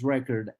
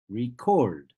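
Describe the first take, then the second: First: "record" as the noun, REC-ord; first syllable of "record" strong, second reduced; stress on first syllable. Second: "record" as the verb, re-CORD; stress on second syllable. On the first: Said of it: "I'm talking about a noun". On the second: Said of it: "The second syllable is stressed". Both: Shown as a demonstration.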